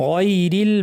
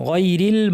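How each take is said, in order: No difference in how they are said.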